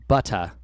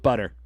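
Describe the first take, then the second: First: The middle consonant is a clear t sound. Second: The middle consonant sounds like a soft d. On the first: "as opposed to butter" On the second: "we would say butter, almost as if it was B U D D E R"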